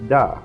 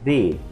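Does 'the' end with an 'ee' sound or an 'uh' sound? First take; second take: uh; ee. First: The vowel is a short 'uh' sound. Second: The vowel is a long 'ee' sound. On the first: The next word starts with a consonant sound. "si la palabra que le sigue es, es consonante, entonces se pronuncia the" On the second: The next word starts with a vowel sound. "en caso de que la palabra que le sigue resulta ser un sonido vocal, se pronuncia the"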